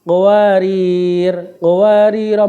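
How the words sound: A stop after the first word, its vowel lengthened. "bila wakof pada kalimat pertama, ro-nya dibaca panjang satu alif"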